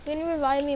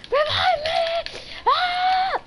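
First: Said in the usual way. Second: High, slow wailing shout for a revive; frantic drawn-out plea to teammate; desperate shout. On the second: Real, not acted. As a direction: yell it out, drawn out and much higher. Downed player begs for revive.

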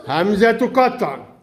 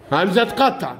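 First: Slowed down and drawn out for the class; slow teaching repeat. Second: Said in the usual way. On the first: Shown as a demonstration. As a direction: stretch each word slowly so the children hear it. (تكرار بطيء للتوضيح)

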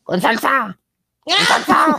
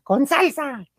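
First: Very high, laughing shout; vendor's changed shout. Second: High vendor cry; imitating vendor. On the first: Retold or imitated. Vendor shouting order after changing tone, high laughing shout. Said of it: "empecé a decir". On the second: Host mimicking vendor to producer, high call. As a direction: mimic the stall lady for a friend. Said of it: "le digo a la productora".

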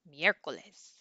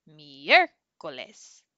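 First: Said in the usual way. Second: Miércoles with a drawn-out, loud MIÉR; exaggerated stress. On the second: Shown as a demonstration. Teacher showing where the accent falls in miércoles, exaggerated first-syllable stress. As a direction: overdo the stress on the first part of miércoles, very slowly. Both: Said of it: "if I exaggerate it".

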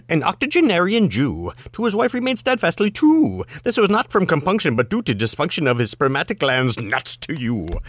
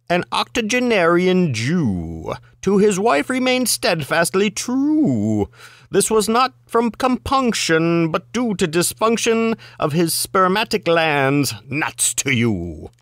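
First: Fast patter without stopping for the rhymes; rapid-fire recitation. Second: Deliberate higher-pitched recitation with stretched rhymes; measured recitation. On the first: Reader rattling off the limerick a second time, rapid-fire. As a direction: race through it, starting high and falling. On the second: Reader's first go at the limerick, measured recitation. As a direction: draw out "true" and linger on "you". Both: Acted.

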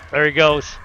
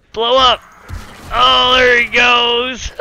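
First: Said in the usual way. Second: Higher, louder, drawn-out glee; savoring the explosion; delighted. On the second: Real, not acted. Gamer watching the cop blow up, gleeful and drawn out.

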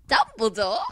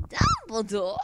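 First: Loud puppet-show voice; Dumbledore impression. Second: Higher-pitched puppet voice; Dumbledore impression. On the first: Apologetic fan attempting Potter Puppet Pals, loud Dumbledore. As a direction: call out the name like a puppet character. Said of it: "botching the Dumbledore voice". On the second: Fan wondering if it's high, piping Dumbledore. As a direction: pipe the name up high. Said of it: "Or is it high?".

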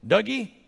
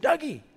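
First: Imitating dad's first call, raised pitch. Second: Imitating dad's sharp, high second call; dad calling insistently. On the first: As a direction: call for the boy as dad, searching. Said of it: "he looks, and he goes". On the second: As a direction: call the sleeping boy much higher, as dad. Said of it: "I acted like I was asleep".

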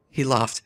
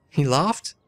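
First: "He laughed" with a falling tune, "He" stressed and the line settling down; corrected inflection. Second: "He laughed" with a rising tune on "laughed", like a question; wrong inflection. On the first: Reading game text aloud, corrected take with a falling tune on "He laughed". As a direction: drop the tune flat and final on "laughed". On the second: Reading game text aloud, first try with the tune rising on "laughed". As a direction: let "laughed" lift up at the end. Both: Shown as a demonstration. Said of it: "Wrong inflection".

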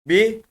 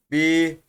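First: Bi short and higher; short vowel. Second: Bi with a long, held i; drawn-out bi; lengthened vowel. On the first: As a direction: keep the i of bi brief. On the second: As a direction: stretch the i of bi. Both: Shown as a demonstration. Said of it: "uzatma görevi yapıyor".

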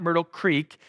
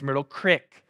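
First: Said in the usual way. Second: Crick with a short i, rhyming with brick; local pronunciation. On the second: Shown as a demonstration. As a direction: say Crick, not creek, the South County way. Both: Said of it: "how they say the word".

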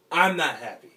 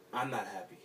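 First: A desperate cry of pain; breaking into a loud anguished yell; anguished shout. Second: Said in the usual way. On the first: Acted. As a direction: yell it out, pitch up and much louder. Repeats line, second take yelled.

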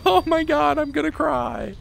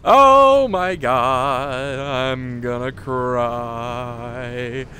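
First: High-pitched relieved wail, fading; overwhelmed relief. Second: Very slow, stretched-out words, sinking lower; drawn-out moan. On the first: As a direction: squeal it, overcome with relief. Overwhelmed relief after checkpoint. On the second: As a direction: drag every word out, fading from loud. Repeats it as exhausted drawn-out moan. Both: Real, not acted.

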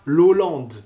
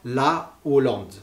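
First: "l'Hollande" run together as lo-lande; wrong elided H. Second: "la Hollande" with la kept whole and apart; "la Hollande" as two clear words, la, o-lande; aspirated H, no elision. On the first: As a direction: elide the article into "l'Hollande", no break. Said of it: "On dit pas l'Hollande". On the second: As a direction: separate la from o in "la Hollande". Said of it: "Eh bien, on dira". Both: Shown as a demonstration.

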